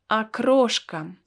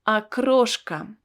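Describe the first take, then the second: First: The first vowel sounds like 'a'. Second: The same.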